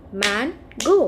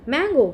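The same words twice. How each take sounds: First: "mango" drawn out as man, go; split into syllables. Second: Said in the usual way. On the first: Shown as a demonstration. Teacher showing children two syllables, "mango" split as man, go. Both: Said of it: "if we have two syllables".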